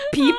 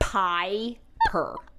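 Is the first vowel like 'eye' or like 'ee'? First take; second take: ee; eye. First: The first vowel sounds like 'ee'. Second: The first vowel sounds like 'eye'. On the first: This is how German would read the spelling. "In German, that's how you would pronounce it" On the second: This is how the name is meant to be said. "But it's spelled like Piper"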